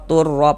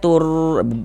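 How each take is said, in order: First: The syllable before the r is short. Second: The syllable before the r is drawn out. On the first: The speaker calls it right. "pendek saja" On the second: The speaker calls it wrong. "Jangan dibaca tur panjangkan begitu"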